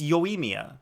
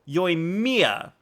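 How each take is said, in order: First: The syllables are level with no stress on mi. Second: The syllable mi carries strong stress. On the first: The speaker calls it right. "It's Yoimiya" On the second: The speaker calls it wrong. "you're saying Mia, ... You're putting stress on the the I"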